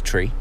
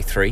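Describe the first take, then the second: First: The word starts with a plain 't' sound. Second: The word starts with a 'th' sound. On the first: "because it's always tree" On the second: "I love it when they say three"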